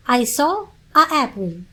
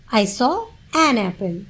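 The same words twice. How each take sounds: First: A APPLE with a separate "ah" before the vowel of APPLE; wrong article. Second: Said in the usual way. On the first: Shown as a demonstration. Teacher posing a common learner mistake, "ah apple". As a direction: say A as "ah", a small break, then APPLE. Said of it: "which one is the correct". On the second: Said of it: "then you are right".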